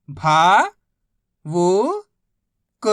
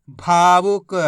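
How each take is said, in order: First: भा, वो, क apart, भा loud and long; syllable by syllable. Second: भावुक joined, loud long भा; blended word. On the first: Teacher modelling reading, भा, वो, क sounded out separately. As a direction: sound out भा... वो... क with pauses. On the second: Teacher modelling reading, भावुक said whole. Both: Shown as a demonstration. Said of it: "बस इसी तरीके से".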